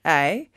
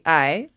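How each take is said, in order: The two takes are said the same way.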